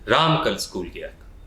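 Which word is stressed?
राम. The word राम is stressed.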